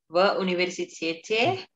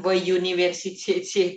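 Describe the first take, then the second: First: It begins with a plain 'oo' sound. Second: It begins with an English-like 'you' sound. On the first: The speaker calls it right. "в университете ya, bukan you" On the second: The speaker calls it wrong. "Jangan в университете, itu kan logat Inggris ya"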